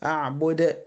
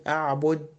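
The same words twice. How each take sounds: First: أعبد with the final د bounced; qalqala. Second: أعبد ending on a dead, unreleased د; no qalqala. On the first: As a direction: release the د of أعبد with a small echo. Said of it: "لكن أقول إيه؟". (قلقلة دال أعبد) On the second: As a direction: close أعبد without bouncing the د. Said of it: "ما ينفعش أقول". (دال أعبد بلا قلقلة) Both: Shown as a demonstration.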